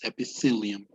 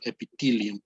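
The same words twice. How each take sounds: First: The th is said with the tongue between teeth. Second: The th is said without the tongue between teeth. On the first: The speaker calls it right. "you put your tongue between your teeth" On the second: The speaker calls it wrong. "It's it's not epithelium"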